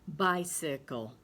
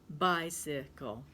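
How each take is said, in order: No difference in how they are said.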